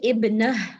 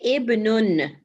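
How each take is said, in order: First: The word ends bare on the n sound. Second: The word ends with an added -un syllable. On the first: The speaker stops on this word. "if you want to stop, you will say ibn" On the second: The speaker continues without stopping. "if you have to say it properly, you will say ibnun"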